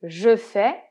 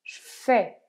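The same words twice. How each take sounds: First: The vowel of "je" is pronounced. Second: The vowel of "je" is dropped. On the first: "c'est « je fais »" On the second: "qu'on va très souvent dire « je fais »... on va faire disparaître le « e » du « je »"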